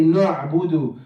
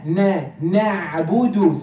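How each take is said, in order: First: "نعبد" with heavy n, like "no'budu"; heavy noon. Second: "نعبد" with a light, open "na"; light noon. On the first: Teacher showing some people's mistake, "نعبد" with heavy noon. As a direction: darken the first syllable of "نعبد". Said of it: "say the noon heavily". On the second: Teacher correcting students, "نعبد" with light "na". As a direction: keep the first syllable of "نعبد" light. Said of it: "it's na". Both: Shown as a demonstration.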